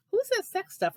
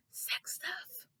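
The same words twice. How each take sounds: First: Said in the usual way. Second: Breathy whispered sex stuff, higher; imitated whisper. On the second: Mocking a husband who whispers about sex. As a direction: hush sex stuff like someone might overhear. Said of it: "whispered it like you were afraid".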